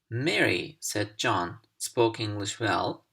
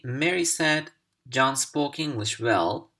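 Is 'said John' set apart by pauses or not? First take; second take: pauses; no pauses. First: There are pauses before and after 'said John'. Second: It flows with no pauses around 'said John'.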